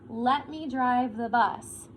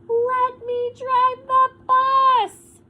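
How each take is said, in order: First: It is read flatly, without expression. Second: It is read louder, with strong expression.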